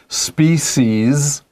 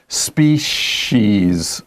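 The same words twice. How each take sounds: First: The middle consonant is a plain 's' sound. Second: The middle consonant is an 'sh' sound. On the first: "One is species, ... So s or sh" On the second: "the other is species. So s or sh"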